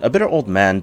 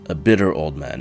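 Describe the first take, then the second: First: It is said in a normal speaking voice. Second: It is said in a lowered, deep voice. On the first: "No, let's not do it" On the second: "let's drop myself a few octaves"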